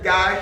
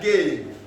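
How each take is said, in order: First: The vowel rhymes with 'eye'. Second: The vowel rhymes with 'day'. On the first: "Some will pronounce it Guy" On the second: "Others pronounce it Gay"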